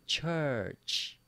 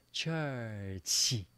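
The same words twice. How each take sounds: First: Said in the usual way. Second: "Church" split in two, ending in smiled "chee"; big-smile pronunciation. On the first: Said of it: "Do you remember the second word?". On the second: Shown as a demonstration. Teacher models the big smile, smiled "Church". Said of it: "Now give me a big smile".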